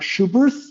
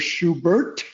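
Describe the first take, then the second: First: The name ends with a th sound. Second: The name ends with a t sound. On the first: The speaker calls it wrong. "are not Schubert" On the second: The speaker calls it right. "silent H at the end"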